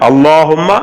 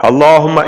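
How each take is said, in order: No difference in how they are said.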